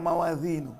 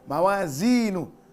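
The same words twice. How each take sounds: First: The middle consonant is a th-like sound. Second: The middle consonant is a plain z sound. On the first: The speaker calls it wrong. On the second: The speaker calls it right.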